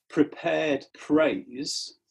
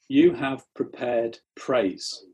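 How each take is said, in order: First: "prepared praise" drawn out very slowly, each word weighed; stress on prepared praise. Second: "You have prepared praise" slow and deliberate; stress on prepared praise. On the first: Preacher pointing the congregation to "prepared praise", slow and weighty. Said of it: "note the words". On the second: Preacher contrasting Greek wording, slow "prepared praise". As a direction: lean slowly on "prepared praise". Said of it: "this psalm says". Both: Shown as a demonstration.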